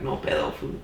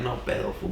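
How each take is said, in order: First: No pedo said lower, small and timid; scared. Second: Cool, tough No pedo, fool. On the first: How he really said it to the knife guy, scared. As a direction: shrink back as you say No pedo. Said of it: "I said it scared". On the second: How he didn't say it to the knife guy, tough. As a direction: say No pedo like you're not scared at all. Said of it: "I didn't say it like that". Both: Shown as a demonstration.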